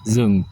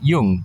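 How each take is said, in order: First: It is said with a Northern, Hanoi-style accent. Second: It is said with a Southern, Saigon-style accent.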